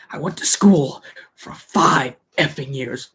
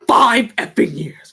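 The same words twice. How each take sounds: First: Said in the usual way. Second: "Five effing years" repeated higher and louder, punching Five; emphatic repeat. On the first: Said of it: "He's like". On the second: Retold or imitated. Quoting the line again, stress on "Five". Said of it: "I gotta say that again".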